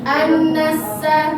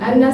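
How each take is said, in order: First: The nasal n sound is held for two beats. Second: The nasal n sound is rushed and clipped short. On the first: The speaker calls it right. "cuma dua harokat" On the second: The speaker calls it wrong. "jangan terburu-buru"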